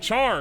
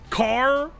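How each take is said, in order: First: It starts with a ch sound, rhyming with far. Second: It starts with a k sound, rhyming with far. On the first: It follows the spelling. "You say char, because that's what it's spelled like" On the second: It is taken from the start of character. "Because it's character?"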